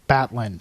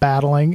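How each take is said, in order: First: The word ends with a clipped 'in' sound. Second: The word ends with a full 'ing' sound. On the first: The speaker calls it right. "it's Batlin" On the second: The speaker calls it wrong. "It's not battling"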